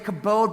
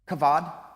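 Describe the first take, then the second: First: The middle consonant is a b sound. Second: The middle consonant is a v sound. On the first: This is how English speakers say it. "We would say kabod" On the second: This is how Hebrew speakers say it. "but the Hebrews would pronounce it kavad"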